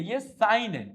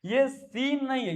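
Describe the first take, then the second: First: साइन said "sine" with the ai diphthong; correct pronunciation. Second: सीन said like "seen", as the word for scene; slow, marked सीन as the mistaken reading; wrong pronunciation. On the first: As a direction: say साइन as sign, clearly with ai. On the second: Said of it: "सीन नहीं पढ़ते हैं". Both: Shown as a demonstration.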